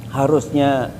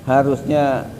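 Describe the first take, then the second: The two takes are said the same way.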